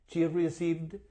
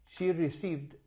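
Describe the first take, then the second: Both takes have the same delivery.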